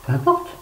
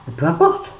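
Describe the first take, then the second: First: High sing-song. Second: Said in the usual way. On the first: Real, not acted. Repeats phrase, second much higher.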